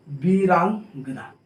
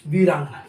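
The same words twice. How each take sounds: First: "Veerangana" drawn out slowly in pieces; syllable-by-syllable. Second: Said in the usual way. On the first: Shown as a demonstration. Teacher showing students the joined word, "Veerangana" slow and stretched. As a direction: sound out "Veerangana" slowly, split before the ending.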